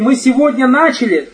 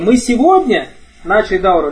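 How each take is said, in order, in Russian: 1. Ударение падает на слово начали. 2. Ударение падает на слово сегодня. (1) "То, что мы ее не заканчиваем. И только начали" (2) "То, что мы сегодня, а не вчера начали"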